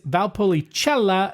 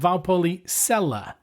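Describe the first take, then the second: First: The C is said with a 'ch' sound. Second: The C is said without a 'ch' sound. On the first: The speaker calls it right. "the C is pronounced ch, like in Czech or cheese. So the word is Valpolicella" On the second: The speaker calls it wrong. "not Valpolicella"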